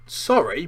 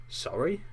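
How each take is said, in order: First: Loud, higher indignant bark. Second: Higher, rising questioning tone; small, uncertain apology that lifts at the end; quick apology. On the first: Hagrid barking Harry's apology back at him, indignant. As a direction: throw the word back forcefully. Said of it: "barked Hagrid". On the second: Harry quickly apologising to shocked Hagrid, hesitant and rising. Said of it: "Harry said quickly". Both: A narrator's reading.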